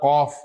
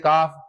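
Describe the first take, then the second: First: The opening sound is deep, with rounded lips. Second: The opening sound is a plain, unrounded k. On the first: The speaker calls it right. "थोड़ा सा गोल कर दें" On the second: The speaker calls it wrong. "Simple जो काफ बोलते हैं"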